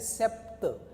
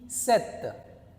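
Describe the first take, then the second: First: The p sound is pronounced in the word. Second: The p sound is left out of the word. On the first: The speaker calls it wrong. "that is wrong pronunciation" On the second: The speaker calls it right. "here P is silent"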